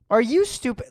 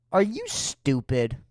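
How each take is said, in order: First: Louder repeat. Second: Said in the usual way. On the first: Acted.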